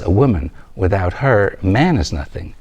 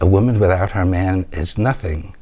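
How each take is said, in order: First: It pauses after woman and again before man. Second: It runs on with no pause after woman. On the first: A man is nothing without a woman. The speaker calls it right. "But the sentence says" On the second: A woman is nothing without her man. The speaker calls it wrong. "You said"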